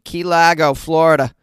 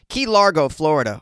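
First: It is said in a Boston accent. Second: It is said in a standard American accent.

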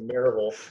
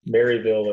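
First: It is said the local East Tennessee way. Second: It is said the ordinary, non-local way.

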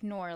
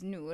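First: The vowel sounds like the English word nor. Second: The vowel is a long oo sound. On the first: The speaker calls it wrong. "nor, like the conjunction. Like, but is it really pronounced that way? No" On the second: The speaker calls it right. "that's how it's supposed to be pronounced"

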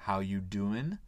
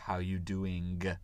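First: Doing ends without a final g sound. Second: Doing ends with a full final g sound. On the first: "on supprime la lettre G parce que c'est plus facile à dire" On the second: "Avec le son G"

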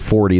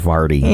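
First: The first vowel sounds like 'for'. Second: The first vowel sounds like 'far'. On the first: This is how most people say it. "People don't say 40" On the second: This is how people in St. Louis say it. "they say Farty"

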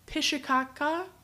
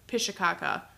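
First: The word is spoken slowly, syllables apart. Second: The word is spoken quickly, syllables run together. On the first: The speaker calls it wrong. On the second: The speaker calls it right.

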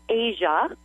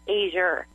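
First: The word ends in a plain vowel. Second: The word ends with an added R sound. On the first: "instead of saying Asia" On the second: "they'll put an R on the end"

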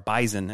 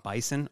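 First: The word is said with a Canadian pronunciation. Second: The word is said with a non-Canadian pronunciation.

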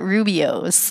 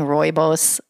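First: The word is said as roo-bee-ohs. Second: The word is said as roy-boss. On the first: The speaker calls it wrong. "I call it Rubio's" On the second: The speaker calls it right. "I've been saying rooibos wrong all these years"

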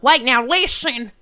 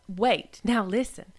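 First: It is said in a folksy turnip truck tone. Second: It is said in her plain everyday voice.

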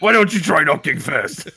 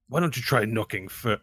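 First: It is said in a mocking imitation voice. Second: It is said in the speaker's usual voice.

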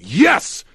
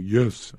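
First: It is yelled loudly and strongly. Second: It is said quietly and weakly.

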